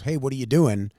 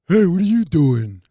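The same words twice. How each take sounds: First: It is said in a plain, normal voice. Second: It is said in a Patrick from SpongeBob voice.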